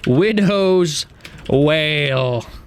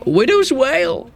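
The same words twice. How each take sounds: First: It is said in a calm, plain way. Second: It is said loudly and fiercely, like an exclamation.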